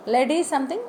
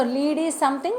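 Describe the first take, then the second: First: "Lead" with short e, like led. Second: "lead" with long ee, like leed. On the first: Teacher sums up the metal meaning, short-e "Lead". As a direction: contrast "Lead" rhyming with bed. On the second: Teacher sums up giving direction, long-ee "lead". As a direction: contrast "lead" rhyming with need. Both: Shown as a demonstration. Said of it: "different pronunciation and meaning".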